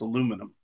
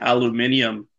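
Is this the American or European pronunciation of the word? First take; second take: American; European. First: It is said the American way. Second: It is said the European way. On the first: "Here in America, it's aluminum" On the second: "apparently in Europe, that's how they pronounce it"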